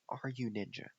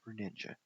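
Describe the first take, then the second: First: "Are You Ninja" with Are and You split apart; name as separate words. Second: "Ru Ninja" with Ru as a single syllable; name as one word. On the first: Chess player rereading an opponent's username, "Are You Ninja" as separate words. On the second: Chess player reading an opponent's username, "Ru Ninja" with one-syllable Ru. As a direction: say "Ru Ninja" with Ru run together. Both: Shown as a demonstration. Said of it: "or Are You Ninja?".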